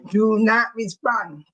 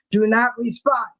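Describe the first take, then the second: First: Every word of "Do not respond" spaced out slowly, weight on "not"; slow, firm warning. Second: Said in the usual way. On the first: Shown as a demonstration. Telling chat not to answer haters, firm and slow on "not".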